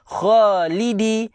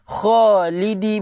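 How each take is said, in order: No difference in how they are said.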